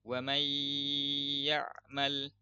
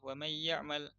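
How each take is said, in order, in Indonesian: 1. Dibaca dengan lambat, dengan bunyi sengau ditahan. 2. Dibaca dengan cepat, dengan bunyi sengau dipendekkan. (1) "itu sempurnanya gitu" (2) "kalau kita pengen baca cepet"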